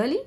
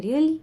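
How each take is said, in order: First: Heavy weight on "Really?" with a rising end; astonished emphasis. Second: "Really?" asked rising, less astonished; milder surprise. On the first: Teacher showing pitch on one word, astonished emphasis. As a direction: ask "Really?" as if amazed. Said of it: "बहुत ज़्यादा heaviness डाल रहे हैं". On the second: Teacher contrasting two ways of asking, milder surprise. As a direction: ask "Really?" with only some amazement. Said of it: "थोड़ा कम उस वे में पूछ रहे". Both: Shown as a demonstration.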